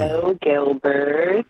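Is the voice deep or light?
light. The voice is light, without added bass. The speaker calls it wrong. "you can't get on the microphone talking like that"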